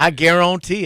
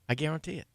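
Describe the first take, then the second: First: It is said in a special put-on voice. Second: It is said in an ordinary, normal voice. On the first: The speaker calls it right. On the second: The speaker calls it wrong.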